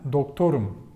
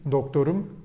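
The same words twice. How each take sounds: First: The stress falls on the middle syllable. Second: The stress falls on the last syllable. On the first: It means I am a doctor. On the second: It means my doctor.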